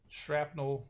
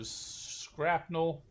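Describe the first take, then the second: First: Said in the usual way. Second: "shrapnel" said as "scrapnel"; alternative pronunciation. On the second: Shown as a demonstration. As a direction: open "shrapnel" with a hard SK sound. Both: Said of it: "whatever you wanna call 'em".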